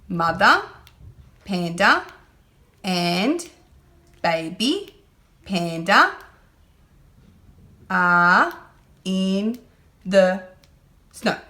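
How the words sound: Each word is separated by pauses, like a robot. The speaker calls it wrong. "Robot reading is like this"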